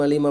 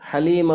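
First: The name begins without an h sound. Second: The name begins with an h sound. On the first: The speaker calls it wrong. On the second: The speaker calls it right.

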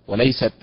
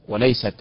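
Both takes have the same delivery.

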